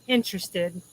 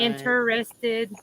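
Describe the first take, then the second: First: The word is said with fewer, reduced syllables. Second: The word is said with four syllables. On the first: "be two" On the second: "maybe four syllables"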